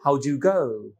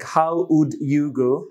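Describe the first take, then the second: First: Would is reduced to a d sound. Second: The word would is said in full. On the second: "how would"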